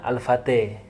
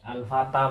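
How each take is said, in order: First: The final vowel is tilted toward e. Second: The final vowel is a plain open a.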